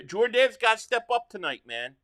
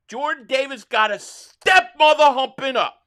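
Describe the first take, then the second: First: Said in the usual way. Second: Louder, raised, furious demand at the team; boze uitroep. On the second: Real, not acted. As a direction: slam each word out at the screen. Angry fan repeating demand, louder.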